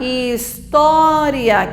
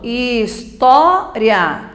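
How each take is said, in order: First: "história" slowly as his-tó-ri-a; "história" drawn out, I and A as separate vowels; four-syllable separation. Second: "história" slowly in three parts, his-TÓ-ria; "história" with a quick one-syllable "ria"; separated syllables. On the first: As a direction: split the ending of "história" into ri-a. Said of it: "Se eu separar história". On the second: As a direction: split "história", holding a loud TÓ. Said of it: "Separou história". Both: Shown as a demonstration.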